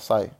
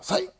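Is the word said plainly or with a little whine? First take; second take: plainly; whine. First: It is said plainly, as to a person. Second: It is said with a little whine, as to a dog.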